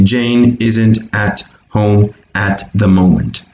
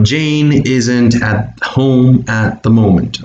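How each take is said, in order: First: Said in the usual way. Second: Slow model sentence, words linked together; slow teacher model, words run together; slow linked reading. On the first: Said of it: "link and connect all these words together". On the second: Shown as a demonstration. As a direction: read it slowly, joining each word to the next. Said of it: "would be the way we link".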